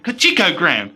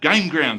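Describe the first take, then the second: First: The first word starts with a J sound. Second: The first word starts with a G sound. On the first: The speaker calls it wrong. "I've been pronouncing this game" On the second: The speaker calls it right. "instead of"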